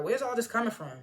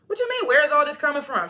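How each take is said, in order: First: Said in the usual way. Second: Loud, high, indignant echo; incredulous. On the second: Real, not acted. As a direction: throw the question back in loud disbelief. Throws Phil's question back.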